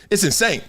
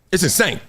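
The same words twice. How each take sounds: The two takes are said the same way.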